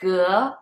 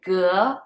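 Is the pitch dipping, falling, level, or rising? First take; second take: rising; rising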